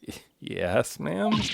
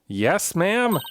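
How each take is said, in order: First: It is said quietly and hesitantly. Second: It is said loudly and firmly.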